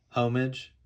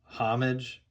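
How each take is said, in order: First: "Homage" with a long "oh", HOH-mij; HOME-ij pronunciation. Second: "Homage" with a short open "ah", HAH-mij; HOM-ij pronunciation. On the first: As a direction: try "Homage" like "home" plus "ij". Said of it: "Is it homage or homage?". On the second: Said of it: "Is that how you say it?". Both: Shown as a demonstration.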